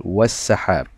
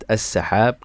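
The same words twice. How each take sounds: First: "والسحاب" joined as was-sahab; silent alif. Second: "السحاب" said alone as as-sahab; initial alif sounded. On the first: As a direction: run wa straight into the s of "والسحاب". (نطق «والسحاب» موصولة دون ألف) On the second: (نطق «السحاب» منفردة بألف منطوقة) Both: Shown as a demonstration. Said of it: "لا تظهر الألف في النطق".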